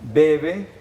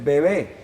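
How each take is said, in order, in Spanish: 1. El acento está en la primera sílaba. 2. El acento está en la última sílaba. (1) "una cosa es eh, bebe" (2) "la acentuación se hizo en la sílaba, en la última sílaba"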